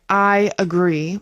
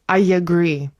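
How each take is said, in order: First: The two words are said without a linking y. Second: A y sound links the two words together. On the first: "You can say I agree" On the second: "it's like I agree. I yeah"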